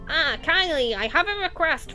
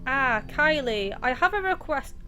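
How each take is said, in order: First: It is read in a put-on character voice. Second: It is read in the speaker's own normal voice.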